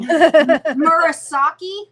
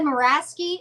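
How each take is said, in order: First: The name is said as Murasaki. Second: The name is said as Muraski. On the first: The speaker calls it right. "I think he wrote" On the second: The speaker calls it wrong. "I said Muraski"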